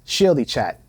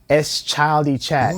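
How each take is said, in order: First: The name begins with a 'sh' sound, like 'shield'. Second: The name begins with a separate s, then 'child'. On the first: The speaker calls it right. "It's pronounced Shieldy Chat" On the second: The speaker calls it wrong. "No, it's not pronounced S-Childy Chat"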